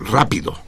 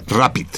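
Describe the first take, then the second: First: Rápido said in Spanish, stress on RÁ; Spanish word rápido. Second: Rapid said the English way, RAP-id; English word rapid. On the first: Host adapting the word into Spanish for listeners, plain Spanish. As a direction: give the Spanish rápido, stressed on the first syllable. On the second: Host saying the English acronym word to listeners, English pronunciation. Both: Shown as a demonstration. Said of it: "Ahorita lo adapto yo al español".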